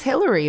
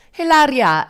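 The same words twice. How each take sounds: First: Said in the usual way. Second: Hilaria high and loud, mock-Spanish; hammed-up Spanish pronunciation of Hilaria; put-on Spanish accent. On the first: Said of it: "her name's Hillary". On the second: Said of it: "but nope".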